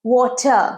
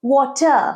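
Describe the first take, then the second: No difference in how they are said.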